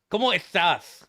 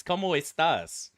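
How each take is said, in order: First: Estás with both s sounds lisped as th; mock Castilian lisp. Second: Estás with clearer s sounds, little lisp; corrective pronunciation. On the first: Classmates mimicking her Spanish, lisping estás as ethtáth. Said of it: "making fun of her by talking like her". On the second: Retold or imitated. Correcting mocking classmates, estás said with plain s. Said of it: "what are you doing? It's".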